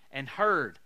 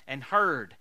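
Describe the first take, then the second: No difference in how they are said.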